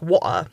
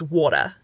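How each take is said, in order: First: The middle T is a glottal stop. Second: The middle T is a quick D sound. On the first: "they instead take it to a glottal stop" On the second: "It's got the TD thing going on"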